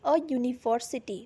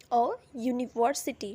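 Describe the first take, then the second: First: "a university" said slowly, with "university" starting "yu"; model pronunciation. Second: "a university" repeated slowly, with the "yu" at the start of "university" clear; model pronunciation. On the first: Teacher slowly models "a university" for the class. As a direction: spell out "a university" slowly for students. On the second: Teacher repeats "a university" slowly for students. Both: Shown as a demonstration. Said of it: "For example".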